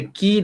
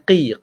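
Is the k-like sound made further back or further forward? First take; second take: forward; back. First: The k sound is light, made further forward. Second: The k sound is deep, made far back. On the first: The speaker calls it wrong. "Beza ki dengan qi" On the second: The speaker calls it right. "Dia huruf Q, bukan huruf K"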